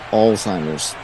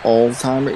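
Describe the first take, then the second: First: The word ends with an s sound. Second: The word ends without an s sound. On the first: The speaker calls it right. "It's Alzheimer's" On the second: The speaker calls it wrong. "it's not Alzheimer"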